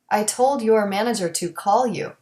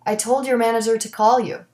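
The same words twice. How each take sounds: First: Your and to keep their full vowels. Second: Your and to are reduced to yer and t.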